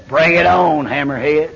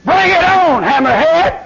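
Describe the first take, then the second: First: Stare the devil down and say it coldly; a calm, chilling challenge to the devil; cold defiance. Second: A preacher yelling his dare at the devil; shouted defiance. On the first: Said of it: "I look him cold in the face and tell him". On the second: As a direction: throw the challenge at the devil full voice. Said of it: "when I talk like that". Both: Retold or imitated.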